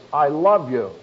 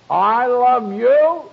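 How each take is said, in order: First: Said in the usual way. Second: "I love you." drawn out slowly, much higher and louder, stress on "you". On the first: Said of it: "possible to say the same expression". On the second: Shown as a demonstration. Preacher shows the congregation a loud, drawn-out I love you. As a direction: stretch out "I love you." loud and high, leaning on "you". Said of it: "just by the inflection of your voice".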